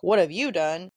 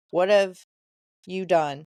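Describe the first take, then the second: First: Retold comeback with the weight on "you"; retort stressing YOU. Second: Weighty, louder WHAT HAVE, then a pause before "you done"; retold reproach, pausing after "have" and falling on "done"; horrified question. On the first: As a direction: throw the question back, YOU rising and punched. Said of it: "And Sarah's like". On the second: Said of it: "His expression showed horror".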